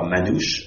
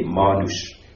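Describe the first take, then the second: First: The stress is on the last syllable. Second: The stress is on the first syllable. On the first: The speaker calls it wrong. "on ne dit pas Manouche à la gâchée" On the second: This is how the community itself says the word. The speaker calls it right. "en accentuant bien sur le A"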